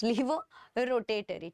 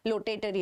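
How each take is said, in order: First: Levorotatory said in full as le-vo-ro-ta-to-ry; corrected term. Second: Lotatory with an L, said as lo-ta-to-ry; slip of the tongue. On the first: Teacher correcting her slip to the class. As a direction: fix it, say levorotatory properly. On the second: Teacher to class, stumbling over the term. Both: Shown as a demonstration. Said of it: "it seems, levorotatory".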